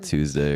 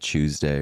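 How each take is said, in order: First: It is said with an American accent. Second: It is said with a British accent. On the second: "little British Britishisms, like accents. So he'll say like"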